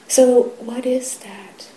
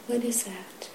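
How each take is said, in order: First: Slow, louder, higher question; emphatic question. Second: Much softer, falling repeat to oneself; quiet echo. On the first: Teacher challenging the sangha, slow and emphatic. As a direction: press the question slowly on the listeners. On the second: Teacher echoing the question to himself, hushed. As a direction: let the question sink in quietly. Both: Real, not acted.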